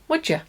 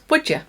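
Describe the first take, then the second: First: The two words are joined into one. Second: The two words are joined into one.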